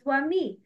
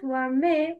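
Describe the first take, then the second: First: ومي with a full kasra, "wa-mee"; complete kasra. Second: ومي with the final vowel opened to "ay"; wrong vowel demo. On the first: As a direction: say ومي with a clear "ee" ending. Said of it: "Complete the كسرة". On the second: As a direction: say ومي as "wa-may", the mistake. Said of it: "It's not". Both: Shown as a demonstration.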